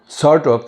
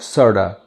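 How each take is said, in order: First: Each word is said separately and in full. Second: The words blend into one reduced word.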